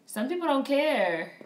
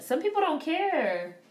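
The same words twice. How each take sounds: First: "dont" hit with a falling tune; stress on don't. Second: "people" stretched high and slow; stress on people. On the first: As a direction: drop hard on "dont" in "Some people don't care". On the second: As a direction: lean long on "people" in "Some people don't care". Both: Shown as a demonstration.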